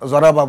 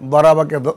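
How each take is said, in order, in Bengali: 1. শব্দটি z-এর মতো ধ্বনি দিয়ে শুরু হয়। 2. শব্দটি d-এর মতো ধ্বনি দিয়ে শুরু হয়। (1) "আমাদের দেশে এমনিতেই ... জরাবা বলি" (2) "যেমন আমরা বরাবাকে জরাবা বলি"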